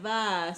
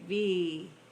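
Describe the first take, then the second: First: The letter ends with an 'ah' vowel. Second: The letter ends with an 'ee' vowel. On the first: The speaker calls it wrong. "Instead of va" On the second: The speaker calls it right. "say V"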